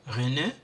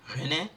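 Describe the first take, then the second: Both takes have the same delivery.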